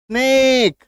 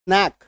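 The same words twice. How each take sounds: First: "स्नेक" stretched out on a higher ए; long e. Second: "स्नैक" with a brief, open ऐ; short open vowel. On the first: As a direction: draw out "स्नेक" with raised pitch. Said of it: "उच्चारण थोड़ा जोर डाल के". ("स्नेक", ऊँचे और लंबे ए के साथ) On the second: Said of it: "दो अलग अलग उच्चारण है". ("स्नैक", छोटा खुला ऐ) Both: Shown as a demonstration.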